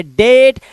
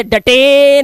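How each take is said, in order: First: डेट in one syllable, long 'ay'; डेट rhyming with 'late'; correct reading. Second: डटे mis-read as two syllables, 'da-tay', last one drawn out; डटे as a literal 'da-TAAAY'; wrong reading. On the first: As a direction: say डेट with silent final e. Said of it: "इसे पढ़ेंगे डेट". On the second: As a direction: stretch the wrongly sounded e of डटे. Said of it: "इसे डटे नहीं पढ़ेंगे". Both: Shown as a demonstration.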